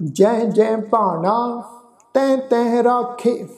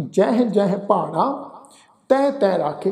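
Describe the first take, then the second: First: Slow, ਜਹ ਜਹ as nasal ਜੈ ਜੈ; old pronunciation. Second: Slow, ਜਹ ਜਹ spelled out as written; modern pronunciation. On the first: Teacher reciting in the traditional pronunciation. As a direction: chant ਜਹ ਜਹ the traditional way, slowly. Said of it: "ਪੁਰਾਤਨ ਜਿਹੜਾ ਉਚਾਰਨ". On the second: Teacher showing the new scholars' pronunciation, slowly. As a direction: read ਜਹ ਜਹ ਭਾਣਾ slowly, clear modern sounds. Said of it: "ਉਹ ਉਚਾਰਨ ਕਰ ਰਿਹਾ ਜੀ". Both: Shown as a demonstration.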